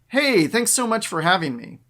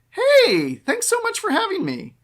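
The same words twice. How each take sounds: First: It is spoken after a breath, sounding strong. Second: It is spoken while breathing in, sounding weak. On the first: The speaker calls it right. "sounds strong" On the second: The speaker calls it wrong. "That's me breathing in as I say those words"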